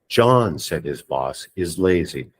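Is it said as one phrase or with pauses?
with pauses. There are pauses around said his boss.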